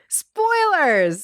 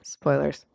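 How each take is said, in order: First: It is said with lively enthusiasm. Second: It is said flatly, without enthusiasm.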